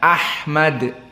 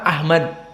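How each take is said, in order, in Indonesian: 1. Bunyi h-nya adalah h faringal yang tegang. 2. Bunyi h-nya adalah h biasa yang berdesah.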